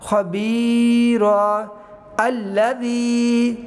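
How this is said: There is a stop, and the second word starts fresh. "अब वक़फ़ करेंगे तो क्या पढ़े बनेगा"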